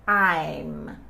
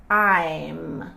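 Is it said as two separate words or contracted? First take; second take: contracted; contracted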